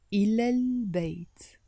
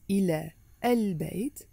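First: "إلى البيت" linked into one word, like "ilal-bayt"; with liaison. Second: "إلى البيت" as two separate words, a small break after إلى; without liaison. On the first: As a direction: run إلى straight into البيت with no break. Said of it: "pronounce it with a liaison". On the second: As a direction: pronounce "إلى البيت" unlinked, each word on its own. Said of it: "instead of pronouncing it". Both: Shown as a demonstration.

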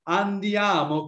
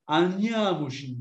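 First: Said in the usual way. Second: "andiamoci" slurred together with its vowels swallowed. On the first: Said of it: "if you swallow the vowels and change". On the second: Shown as a demonstration. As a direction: run "andiamoci" together, slowly, dropping vowels. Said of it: "if you swallow the vowels".

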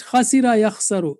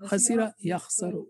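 First: Louder lead on Khasira yakhsaru; drill lead. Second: Much softer repeat of Khasira yakhsaru; echo take. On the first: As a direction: model Khasira yakhsaru clearly. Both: Shown as a demonstration.

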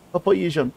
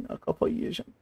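First: Said in the usual way. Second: Whispered under the breath; whispered frustration. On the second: Real, not acted. Streamer repeating his frustration, whispered.

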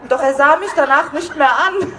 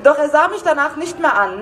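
First: Reading the line while cracking up with laughter; barely holding back real giggles; laughing through it. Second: Said in the usual way. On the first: Real, not acted. Reader breaking up over the novel's line, laughing. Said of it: "Das hat sie geschrieben, okay?". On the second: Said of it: "Ähm".

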